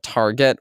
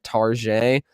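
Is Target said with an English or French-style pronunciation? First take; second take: English; French-style. First: The store name is said in plain English. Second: The store name is said in French style. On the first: The speaker is using the ordinary name. The speaker calls it right. "just call it Target" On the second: The speaker is pretending to be sophisticated or European. The speaker calls it wrong. "they think they're, like, so cool and they call Target Target"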